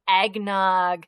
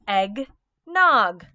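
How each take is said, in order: First: The two syllables are blended without a pause. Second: The two syllables are said apart with a pause. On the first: "What's the word?" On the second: "I'm going to put the two parts together"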